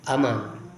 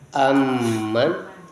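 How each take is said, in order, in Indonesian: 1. Bunyi m dibaca tunggal dan pendek. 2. Bunyi m dibaca ganda dan ditahan lebih lama. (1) "bitakhfifil mim tanpa tasdid" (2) "bacaan bitasydid"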